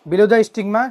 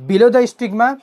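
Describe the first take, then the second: No difference in how they are said.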